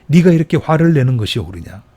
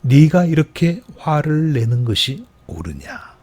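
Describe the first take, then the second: First: Stern emphatic rebuke; firmer repeat. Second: Slow, measured reading of 네가 이렇게 화를 내는 것이 옳으냐; deliberate unhurried rebuke; slow scripture reading. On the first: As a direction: press the question home with more force. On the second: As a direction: let each word of the verse land slowly. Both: Shown as a demonstration. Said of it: "말씀 그대로 읽어보겠습니다".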